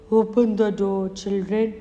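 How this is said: The wolf's voice is gruff and rough.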